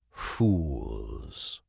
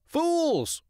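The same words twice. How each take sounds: First: "fools" dropped very low; contemptuous low fools. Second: "Fools!" very high and shrill; squawky Fools. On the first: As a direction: growl "fools" in scorn. Hawk contempt. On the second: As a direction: caw "Fools!" gleefully. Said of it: "The crow agreed wholeheartedly". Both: Acted.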